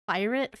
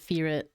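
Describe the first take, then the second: First: The first syllable sounds like 'fur'. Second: The first syllable sounds like 'fear'. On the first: The speaker calls it wrong. "Firet feels like a very cursed way to say it to me" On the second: The speaker calls it right. "I pronounce it Fearit"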